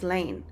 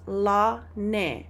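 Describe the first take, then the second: First: The name is said as one syllable. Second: The name is said as two syllables. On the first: This is the English soldier's surname. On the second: This is how a Samoan would say it.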